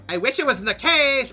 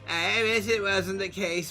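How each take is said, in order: First: It is said in a put-on valley girl voice. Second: It is said in a put-on soft, timid voice. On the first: "Valley Girl?" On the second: "Fluttershy voice?"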